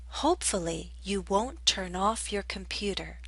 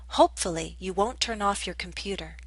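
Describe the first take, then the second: First: The sentence is spoken at a slower pace. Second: The sentence is spoken at a faster pace.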